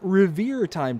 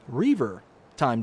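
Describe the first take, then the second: First: The first word is said like 'revere'. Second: The first word is said like 'reaver'. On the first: The speaker calls it wrong. "I've been pronouncing this wrong for a very long time" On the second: The speaker calls it right. "it's Reaver"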